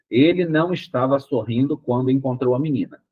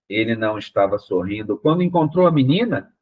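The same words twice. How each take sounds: First: It is said as a plain statement throughout. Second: The question tune appears only at the end. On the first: It states a fact. "Ponto. Uma afirmação" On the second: The reader did not see the question coming. "Então fica uma coisa completamente sem pé nem cabeça"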